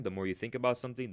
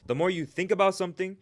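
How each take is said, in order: First: Said in the usual way. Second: "about" punched high and loud; stress on about. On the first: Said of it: "first plain take". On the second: Shown as a demonstration. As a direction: lift and hit "about" hard. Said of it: "repeats phrase with emphasis".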